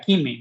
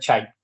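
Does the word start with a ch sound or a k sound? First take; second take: k sound; ch sound. First: It starts with a k sound. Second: It starts with a ch sound. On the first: The speaker calls it wrong. "Uno pronunciaría Kimi, no" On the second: The speaker calls it right. "se pronuncia Chime"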